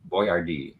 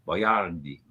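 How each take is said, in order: First: The stress is not on the middle syllable. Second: The stress is on the middle syllable.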